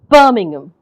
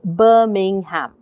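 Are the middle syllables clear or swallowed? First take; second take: swallowed; clear. First: It is quick, with the middle syllables swallowed. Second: It is slow, with every syllable said clearly. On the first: "you tend to swallow them" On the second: "if I said that slowly, if I said that without the stress"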